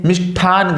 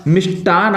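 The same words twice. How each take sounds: First: मिष्ठान with an aspirated ठ; wrong pronunciation. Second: मिष्टान with a plain unaspirated ट; correct pronunciation. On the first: Teacher showing the children the wrong मिष्ठान. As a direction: say मिष्ठान with a breathy ठ. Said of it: "गलत है". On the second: Teacher saying मिष्टान correctly to the children. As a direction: say मिष्टान with a clean ट sound. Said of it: "मिष्टान सही है". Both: Shown as a demonstration.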